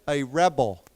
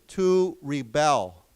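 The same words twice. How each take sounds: First: "rebel" modelled as REB-el for repeating; stress on first syllable. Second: Slow "rebel", ree-BEL, as a verb; stress on second syllable. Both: Shown as a demonstration. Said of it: "the accent is different".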